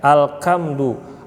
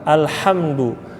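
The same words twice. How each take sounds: First: The h is made harsh like kh or k. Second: The h is a soft breathy sound. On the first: The speaker calls it wrong. "diubah dari H menjadi Kha" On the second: The speaker calls it right. "Harusnya alham, alhamdu"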